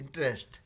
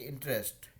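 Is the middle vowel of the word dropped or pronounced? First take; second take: dropped; dropped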